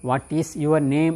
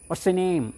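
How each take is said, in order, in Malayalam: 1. എല്ലാ വാക്കും പൂർണ്ണമായി നീട്ടിയാണ് പറയുന്നത്. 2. പ്രധാന വാക്ക് മാത്രം വ്യക്തമായി; ബാക്കിയുള്ളത് മങ്ങിയ രീതിയിൽ. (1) "നീട്ടി ചോദിക്കേണ്ട ആവശ്യമില്ല" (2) "ബാക്കിയുള്ളത് സ് എന്ന് ശബ്ദം ഉണ്ടാക്കിയാൽ മതി"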